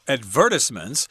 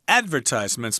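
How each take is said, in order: First: The stress falls on a later syllable. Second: The stress is on the first syllable. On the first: Some people say it this way. "Some people pronounce this word" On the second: This is the speaker's own way of saying it. "I say advertisements myself with the accent on the first syllable"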